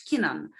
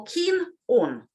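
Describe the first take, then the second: First: KEENAN run together, the n carried into the vowel; linked as one word. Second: KEEN ON as two separate words, keen higher; unlinked words. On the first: Teacher demonstrating linking, keenan said as one word. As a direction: join keen on into a single word, kee-nən. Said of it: "say it as one word". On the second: Teacher showing words before linking, keen on said separately. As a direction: keep keen and on apart, each clearly sounded. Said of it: "On starts with a vowel". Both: Shown as a demonstration.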